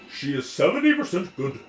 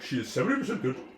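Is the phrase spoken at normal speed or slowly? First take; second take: slowly; normal. First: The phrase is spoken slowly. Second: The phrase is spoken at normal speed. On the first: "I just slowed it down for you" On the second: "it sounded more like"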